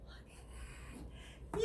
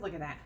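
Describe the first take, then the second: First: "Look" and "at that" pulled apart by a long pause; savoring reveal of the food; drawn-out look at that. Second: Said in the usual way. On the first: Shown as a demonstration. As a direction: linger on "Look", then land "that".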